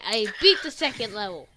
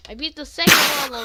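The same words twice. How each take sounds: First: Said in the usual way. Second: Excited, fast. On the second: Real, not acted. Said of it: "Wait. No".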